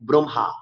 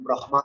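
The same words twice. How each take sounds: First: The h sound comes after the m. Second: The h sound comes before the m. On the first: The speaker calls it right. "হয় উচ্চারণ পরে করবে" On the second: The speaker calls it wrong. "হ উচ্চারণ আগে করবে"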